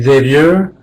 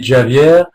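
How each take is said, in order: First: The name is said with an American pronunciation. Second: The name is said with a Portuguese pronunciation. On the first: "In American, it would be" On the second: "In Portuguese, it would be"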